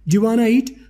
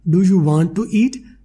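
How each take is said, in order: First: Do you want to runs together as diwana. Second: Each word of do you want to is separate. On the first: "दीवाना बोल रहे हैं दीवाना" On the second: "डू यू वांट टू"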